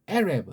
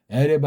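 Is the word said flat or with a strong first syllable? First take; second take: stressed; flat. First: It is said with a strong first syllable. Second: It is said flat, with no stressed syllable. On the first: The speaker calls it right. "높낮이가 있어야 돼. 강약이 있어야 된다" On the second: The speaker calls it wrong. "그냥 에레브 하게 되면 뭔 말인지 모르고"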